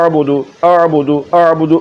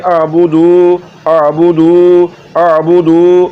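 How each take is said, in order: First: The vowel after the d is kept short. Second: The vowel after the d is drawn out long. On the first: The speaker calls it right. "दाल को लंबा नहीं करना" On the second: The speaker calls it wrong. "पेश को लंबा करेंगे तो फिर ये वाला लफ्ज़ पड़ेगा"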